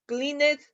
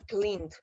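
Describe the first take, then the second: First: "cleaned" said as two syllables, clin-et; "cleaned" with an extra et syllable on the end; wrong pronunciation. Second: "cleaned" as one syllable, clind; "cleaned" said in one beat, ending softly on a d sound; correct pronunciation. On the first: Teacher giving students the wrong two-syllable "cleaned". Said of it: "¿cómo lo voy a pronunciar?". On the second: Teacher saying "cleaned" for students the way it really sounds, in one syllable. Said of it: "se los voy a poner así como suena". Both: Shown as a demonstration.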